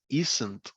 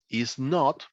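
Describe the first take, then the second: First: The vowel of 'not' is dropped entirely. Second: The vowel of 'not' is clearly pronounced.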